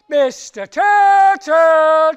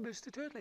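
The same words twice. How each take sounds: First: It is shouted more loudly. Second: It is called at normal loudness.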